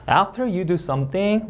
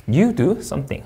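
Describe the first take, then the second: First: Slow read, lifting on "something"; drawn-out "After you do something" tilting up at "something"; rising tone. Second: Slow read, dropping on "something"; measured "you do something" with a final fall on "something". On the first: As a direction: end "something" on a rise, unfinished clause. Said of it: "올려 있고". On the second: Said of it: "내려 있습니다". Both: Shown as a demonstration.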